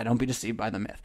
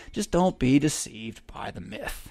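First: Softer, quieter repeat of the warning; soft echo. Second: Slow, measured, each word weighted; slow deliberate warning. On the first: Preacher echoing his own warning to listeners, quiet and soft. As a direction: let "don't be deceived by the myth" fall away quietly, like an afterthought. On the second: Preacher warning listeners, slow deliberate emphasis. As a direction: lay out "Just don't be deceived by the myth" slowly like a solemn warning. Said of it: "Yeah, don't be deceived by the myth". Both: Shown as a demonstration.

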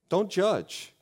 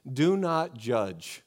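First: Don't punched high, quick fall; stress on Don't. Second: Each word slow and weighty; slow solemn reading. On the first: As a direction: hit Don't hard and short. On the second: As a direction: read it slow like scripture. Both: Shown as a demonstration.

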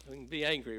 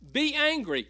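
First: Said in the usual way. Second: "Be angry." much higher and louder, "Be" hit hard; emphatic quote. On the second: Shown as a demonstration. Pastor quoting Ephesians, stressing "Be" loud and high. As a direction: proclaim "Be angry." with a punch on "Be".

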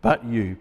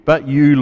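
First: Soft but you. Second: "but you" lifted and pressed, louder. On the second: Pastor repeats his favourite words to the congregation, pressing them. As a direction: lean hard on "you". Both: Shown as a demonstration. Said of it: "I love that word".

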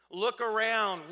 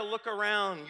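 First: Slower and louder, leaning on "around"; insist, drawing out "around"; emphatic look around. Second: Said in the usual way. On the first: Retold or imitated. People dismissing Jeremiah's warning.

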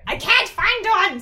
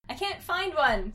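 First: Very loud, high, slow yell; hammed-up furious kid yell; angry shout. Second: Raised, higher, slow complaint; mild acted anger, drawn out; frustrated kid, louder and slower. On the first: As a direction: shout it in frustration, every word drawn out. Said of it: "said Tommy with anger in his voice". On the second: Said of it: "said Tommy with anger". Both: A narrator's reading.

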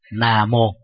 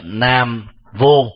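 First: "Nam mô" with an m opening the second syllable; transliterated pronunciation. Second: "Nam vô" with v replacing the m; Chinese-style mispronunciation. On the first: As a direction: say "Nam mô" as transliterated from Pali and Sanskrit. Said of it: "được phiên âm từ tiếng Pali và Sanskrit". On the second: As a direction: say "Nam vô", slow, v opening the second syllable. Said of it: "họ không phát âm chuẩn". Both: Shown as a demonstration.

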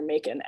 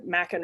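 First: "Makin" with long a, MAKE-in; alternative pronunciation. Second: "Makin" with short a, MACK-in; alternative pronunciation. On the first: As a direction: say "Makin" as MAY-kin, like makin'. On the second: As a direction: say "Makin" as MACK-un, rhyming with bracken. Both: Shown as a demonstration. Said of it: "I think that's how you pronounce it".

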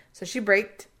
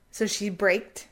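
No difference in how they are said.

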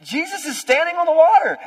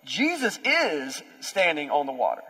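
First: Louder and higher, preaching it out; full-force preached declaration; loud proclamation. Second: Every word slowed and weighed; slow, deliberate statement; slow emphasis. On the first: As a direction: shout it to the back row. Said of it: "That's what everyone else is missing". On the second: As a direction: let it land, word by word. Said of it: "No, like". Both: Shown as a demonstration.

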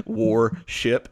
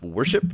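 First: War ship, with war said like the word war; "war ship" as two words, war plus ship; okie accent. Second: Said in the usual way. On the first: Shown as a demonstration. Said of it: "I say war, war ship instead of worship". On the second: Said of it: "instead of worship".

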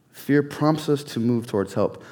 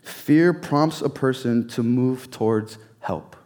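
First: Said in the usual way. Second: Slow, leaning hard on Fear; slow emphatic repeat. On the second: Shown as a demonstration. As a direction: press each word, stress Fear.

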